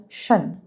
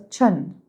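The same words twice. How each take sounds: First: "shun" starting with sh; "shun" with a smooth sh at the start; correct "shun" pronunciation. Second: "chun" starting with a ch sound; "chun" with ch instead of sh; wrong "chun" pronunciation. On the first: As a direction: say "shun" with sh, not ch. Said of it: "it's pronounced as shun". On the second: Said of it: "لا مش chun". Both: Shown as a demonstration.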